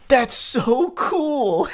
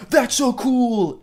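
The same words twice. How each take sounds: First: Slow, high, hollow game-character line; stilted, much higher "That's so cool!"; NPC dialogue. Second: High, slowed robotic game-character line; canned, much higher "That's so cool"; NPC dialogue. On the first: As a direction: read it like a canned video game NPC. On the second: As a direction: deliver it like scripted NPC chatter. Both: Retold or imitated. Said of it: "N P C dialogue".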